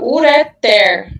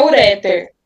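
First: Ureter stressed on the final syllable, ureTER; stress on last syllable. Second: Ureter stressed on the middle syllable, uRÉter; wrong stress. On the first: Tutor telling the group the right stress: ureter on the last syllable. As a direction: land the weight on the end of ureter. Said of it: "é a última". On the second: Tutor showing the study group the wrong way: ureter with second-syllable stress. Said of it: "A sílaba forte não é a segunda". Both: Shown as a demonstration.

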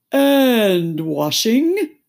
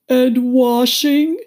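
First: "and washing" hugely drawn out, loud; "and washing" as a weighty list item; emphatic Mock Turtle. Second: "And washing" asked high, loud and slow; "And washing" as a woeful, rising query; questioning Mock Turtle. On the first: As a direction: stretch "and" long before "washing". Mock Turtle stresses the extra. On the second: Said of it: "said the Mock Turtle". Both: A narrator's reading.

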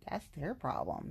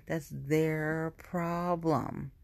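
First: Said in the usual way. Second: "That's their problem" very slowly, stretching "their" and "problem"; drawn-out emphasis. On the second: Real, not acted. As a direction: drag out "their problem" word by word.

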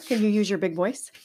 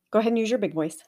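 First: Put-on whispered question to a child. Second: Said in the usual way. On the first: Shown as a demonstration. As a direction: hush it, all breath and no voice. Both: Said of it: "If I whisper it to you".

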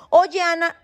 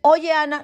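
First: Put-on cheeky kid calling her by first name, pitched up; casual "Oye, Ana" in a higher voice; imitating a rude kid. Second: "Oye, Ana" repeated, same pitched-up cheek; the kid insists casually; cheeky repeat; imitating a rude kid again. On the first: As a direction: mimic a child being overly familiar. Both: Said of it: "¿Perdón?".

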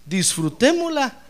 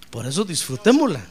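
First: "Disfrutémosla" drawn out slowly, pitched much higher; emphatic, slow. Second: Said in the usual way. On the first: Shown as a demonstration. Preacher urging the congregation, high, slow "Disfrutémosla". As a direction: stretch "Disfrutémosla" out high and slow to drive it home. Repeated exhortation, plain then stressed.

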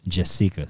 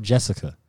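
First: "Jessica" with a long ee for the i; "Jessica" with the middle vowel stressed as ee; accented I. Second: Said in the usual way. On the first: Shown as a demonstration. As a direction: say "Jessica" as jess-EE-ka. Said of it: "an accent on the I". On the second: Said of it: "spelled Jessica".

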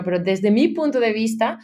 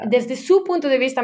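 First: "mi" leaned on, the phrase ending in a rise; stress on mi. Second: "su" lifted and leaned on, higher than the rest; stress on su. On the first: Describing her fear of the board to the host, stress on mi. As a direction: hit "mi" to claim her own side, lifting at the end. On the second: Telling the host about London board meetings, stress on su. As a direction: push "su" up to set their view against hers. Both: Real, not acted. Contrast between their view and mine.

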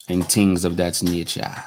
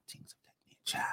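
First: Said in the usual way. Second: Breathy whispered echo. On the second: Shown as a demonstration. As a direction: whisper it back under your breath. Repeats the phrase, then whispers it.

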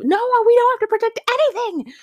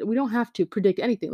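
First: Very high, loud, rushed refusal; outraged mock yell. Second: Said in the usual way. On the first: Student refusing the teacher's task, outraged mock yell. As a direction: burst out in hammed-up outrage. Retold argument with chemistry teacher.

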